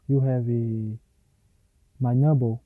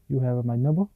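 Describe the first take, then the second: First: The end of the phrase stays flat. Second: The end of the phrase is pitched strongly.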